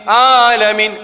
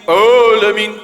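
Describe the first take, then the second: First: The opening Ain sound is light and thin. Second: The opening Ain sound is heavy and thick. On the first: The speaker calls it right. "ringan aja" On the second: The speaker calls it wrong. "tak ada"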